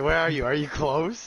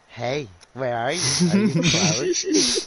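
First: It is said in a plain voice. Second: It is said in a creepy voice.

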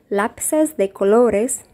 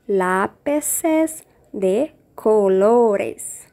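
First: The phrase is said quickly. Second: The phrase is said slowly.

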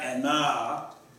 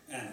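First: The final vowel is drawn out long. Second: The final vowel is short. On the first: The speaker calls it wrong. "Not Anna" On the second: The speaker calls it right. "you don't pronounce that extra A. It's just Anna"

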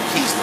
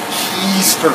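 First: It is said flatly and quickly. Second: It is drawn out with relish and emphasis.

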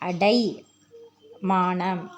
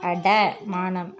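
First: The second syllable has the long 'ai' vowel. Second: The second syllable has the short 'a' vowel. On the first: The speaker calls it right. "அந்த டைக்கும் டேக்கும் என்ன வித்தியாசம்" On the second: The speaker calls it wrong. "அடமானம் அப்படின்னு தவறாக தான் நம்ம உச்சரிச்சிட்டு இருக்கோம்"

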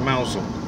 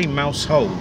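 First: It is said as one reduced word, mousel. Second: It is said as two full words, mouse hole. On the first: This is how locals say the name. The speaker calls it right. "we say mousel" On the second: This is how outsiders say the name. The speaker calls it wrong. "The locals don't say mouse hole"

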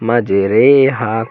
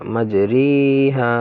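First: The vowel after R sounds like 'ay'. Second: The vowel after R sounds like 'ee'. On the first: The speaker calls it right. "এমালা করে পড়তে হবে" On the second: The speaker calls it wrong. "মাঝে রি বলতে পারবেন না"

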